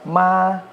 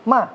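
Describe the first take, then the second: First: The pitch stays high and level. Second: The pitch falls sharply from high. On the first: "nada satu"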